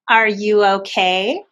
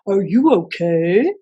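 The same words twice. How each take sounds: First: It is said in a normal voice. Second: It is said in a puppy voice.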